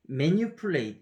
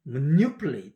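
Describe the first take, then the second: First: Manipulate said Korean-style, every syllable even as 매니퓰레이트; Konglish manipulate. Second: Manipulate said as 머뉴플레잇, stress on the second syllable, reduced vowels; native manipulate. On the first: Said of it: "우리나라 사람한테 이걸 발음하라면". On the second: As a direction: swallow the weak syllables of manipulate. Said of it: "원어민 사람은 이거 어떻게 발음하는지". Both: Shown as a demonstration.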